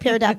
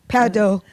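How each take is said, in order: First: It is pronounced the plain English way. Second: It is pronounced the French way.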